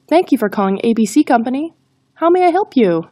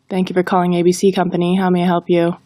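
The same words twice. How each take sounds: First: It sounds friendly and confident. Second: It is read in a flat monotone. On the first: The speaker calls it right. "focus on being friendly and confident" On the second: The speaker calls it wrong. "If we read it in a monotone, it falls flat"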